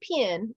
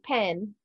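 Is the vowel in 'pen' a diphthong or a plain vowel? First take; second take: diphthong; plain. First: The vowel glides, sounding more like an 'I'. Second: The vowel is a plain, single vowel. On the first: "there's a little diphthong in the pen and it's more like an I sound" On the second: "That's how most most people pronounce it"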